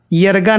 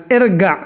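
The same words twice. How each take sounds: First: यरगा said with a y sound at the start, the wrong way; wrong pronunciation. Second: इरगा said with a short i at the start, not ya; correct pronunciation. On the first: Teacher to students, warning against यरगा as the wrong form. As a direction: show the mistake, यरगा beginning with ya. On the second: Teacher to students, giving the correct इरगा. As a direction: give the right form, इरगा beginning with i. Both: Shown as a demonstration. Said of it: "यरगा नहीं बोलना".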